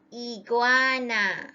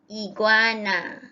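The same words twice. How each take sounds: First: "Iguana" slowly drawn out, each syllable clear; sounding out words. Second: Said in the usual way. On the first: Shown as a demonstration.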